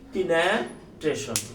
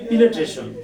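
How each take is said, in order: First: The second syllable has an 'a' vowel. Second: The second syllable has an 'e' vowel. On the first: The speaker calls it wrong. "আপনি এইভাবে উচ্চারণ করলেন" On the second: The speaker calls it right. "যে উচ্চারণ পারে সে বলে দিল পিনেট্রেশন"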